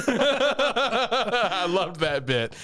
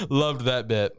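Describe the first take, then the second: First: High, slow, drawn out through a laugh; giggly delight at the memory. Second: Said in the usual way. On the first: Real, not acted. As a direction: stretch it out while still laughing. Laughing, recalling a funny scene.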